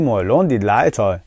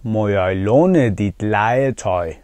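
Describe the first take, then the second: First: "مالون دید لای تای" run together quickly; quick fluent version. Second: Slow, fully sounded "Må jeg låne dit legetøj"; slow careful version. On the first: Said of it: "اینقدر تکرار کنید که سریع بتونید بگید". (سریع و سرهم) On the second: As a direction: say "Må jeg låne dit legetøj" slowly, each word given its full sounds. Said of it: "خیلی سلیس بخوایم بگیم که خیلی هم درسته". (شمرده، آهسته و کامل) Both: Shown as a demonstration.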